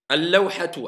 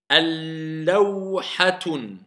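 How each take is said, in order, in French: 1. Le mot se termine par une voyelle, sans n. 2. Le mot se termine par un son n ajouté. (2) "Est-ce que j'ai le droit de dire al-lawhatun? C'est faux"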